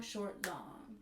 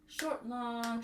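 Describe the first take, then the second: First: Short quick then long, softer; rhythm repeated softly. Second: Short clipped, long held; spoken rhythm. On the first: Teacher echoes the rhythm for students. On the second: Teacher speaks the rhythm short then long. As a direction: say Short quick and long stretched. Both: Shown as a demonstration.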